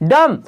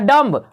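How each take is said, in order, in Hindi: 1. शब्द m पर खत्म होता है, इसमें b की ध्वनि नहीं है। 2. शब्द के अंत में b की स्पष्ट ध्वनि सुनाई देती है।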